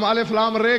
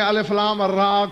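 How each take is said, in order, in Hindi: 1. आखिरी अक्षर के नाम का अंत 'e' स्वर से होता है। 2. आखिरी अक्षर के नाम का अंत 'a' स्वर से होता है। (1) "हम अलिफ लाम रे कहते हैं" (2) "अरबी में अलिफ लाम रा कहते हैं"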